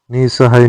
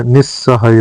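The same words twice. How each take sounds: First: निसहाय with one short s; short, single s in निसहाय; single-s pronunciation. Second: निस्सहाय with a long double s; doubled s. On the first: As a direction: say निसहाय without doubling the s. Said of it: "निसहाय नहीं होता". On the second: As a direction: hold the s in निस्सहाय. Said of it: "निस्सहाय होता है". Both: Shown as a demonstration.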